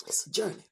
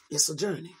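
First: Soft breathy whisper of the phrase "It's a journey". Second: Said in the usual way. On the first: Real, not acted. Preacher reflecting on life's journey to congregation, whispered.

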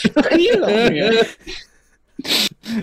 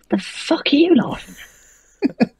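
First: High puppet voice, drawn out and near tears; slow whiny puppet voice. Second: High, put-on puppet voice snapping a question; angry puppet voice. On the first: Acted. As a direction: stretch the line out like a sulking puppet. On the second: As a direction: play the puppet, much higher and offended. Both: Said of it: "and he says".

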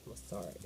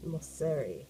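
First: Moseri with an "ah" in the middle, mos-SAH-ree; muttered Moseri, middle vowel as in "car"; second try at pronunciation. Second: Moseri with an "eh" in the middle, mos-SEH-ree; tentative Moseri, middle vowel as in "set"; trying a pronunciation. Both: Shown as a demonstration. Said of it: "I hope I am saying that name right".

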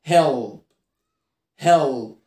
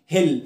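First: هيل with a heavy, drawn final l; low هيل closing on "ull"; dark L. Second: هيل with a thin, clear final l; short هيل, tongue-tip l; light L. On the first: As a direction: darken and hold the l in هيل. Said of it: "هنا قبليه حرف متحرك". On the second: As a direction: say هيل with no darkening of the l. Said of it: "ما تقولش هيل". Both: Shown as a demonstration.

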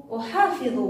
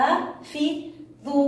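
First: Said in the usual way. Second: Slow, segmented أحافظ; split into syllables. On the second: Shown as a demonstration. Teacher recapping the word for pupils, syllable by syllable. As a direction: sound out each syllable of أحافظ separately. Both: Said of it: "ونريد أيضًا أن نقطعها".

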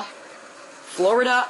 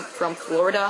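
First: Florida stretched slow and lifted; drawn-out word. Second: Said in the usual way. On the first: Real, not acted. Traveller fondly recalling his trip to Florida, drawn out. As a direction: savour Florida, slow and dreamy.

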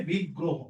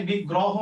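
First: বিগ্রহ with rounded o, big-ro-ho; correct pronunciation. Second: বিগ্রহ with open aw, big-raw-ho; wrong pronunciation. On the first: Teacher giving the corrected word, rounded o. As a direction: round the middle vowel of বিগ্রহ to o. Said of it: "হবে বিগ্রহ". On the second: Teacher showing the form to avoid, open-vowel mispronunciation. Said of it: "তাইলে এখানে বিগ্রহ হবে না". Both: Shown as a demonstration.

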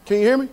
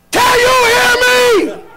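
First: Said in the usual way. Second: Much higher, much louder full-voice shout; sudden shout. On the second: Shown as a demonstration. Preacher demonstrating to the congregation, shouting loud. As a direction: bellow it out to the back pews. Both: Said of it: "All right, watch this".

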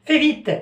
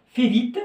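First: Higher and louder, pressing her to hurry; hungry husband hurrying his wife, impatient; impatient order. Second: Said in the usual way. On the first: Acted. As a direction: snap "Fais vite" at her, impatient. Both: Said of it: "urging wife in role play".

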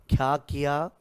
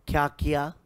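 Both takes have the same delivery.

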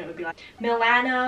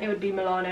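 First: Nasal American Milano with flat a; American accent. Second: British accent. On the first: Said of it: "that annoying nasally voice". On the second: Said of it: "I think in a British accent". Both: Shown as a demonstration.

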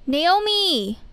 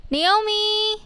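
First: Calling out. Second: Second call pitched well up; reaching across the street for a friend; calling out higher. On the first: Calling out to friend. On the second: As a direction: call her name again, higher and more urgent. Calling out louder. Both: Acted.

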